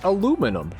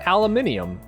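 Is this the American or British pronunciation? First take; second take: American; British. First: It is said the American way, four syllables. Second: It is said the British way, five syllables. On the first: "in America, we call it aluminum" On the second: "In Britain, they call it aluminium"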